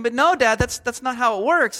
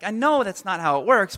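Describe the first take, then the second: First: Higher-pitched imitation of a kid; mock protest to Dad, pitched up; lightly voiced overwhelmed child. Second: Dad's reply in a near-normal voice; lightly voiced dad explaining; parent replying. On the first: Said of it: "they're completely overwhelmed". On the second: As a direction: answer as the parent, barely acted. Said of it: "I'm a parent".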